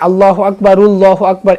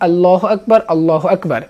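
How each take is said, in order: First: The phrases run together with a vowel link. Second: Each phrase ends with a stop before the next. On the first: The speaker calls it wrong. "অনেকেই আল্লাহু আকবার উল্লাহু আকবার এভাবে বলতে চান, না" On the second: The speaker calls it right. "প্রতিটা বাক্যের শেষে সাকিন করতে হবে"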